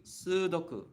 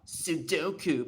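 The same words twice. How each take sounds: First: "Sudoku" with a long "soo" and short, pure "doku"; Japanese pronunciation of Sudoku. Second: "Sudoku" the English way, middle drawn into a gliding "doh"; common mispronunciation of Sudoku. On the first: Shown as a demonstration. Teacher correcting how people say Sudoku, Japanese pronunciation. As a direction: say "Sudoku" as "SOO-doku", first vowel held. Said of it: "but it's actually".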